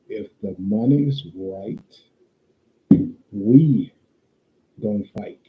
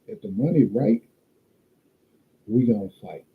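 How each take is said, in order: First: It is said slowly. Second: It is said at a normal pace.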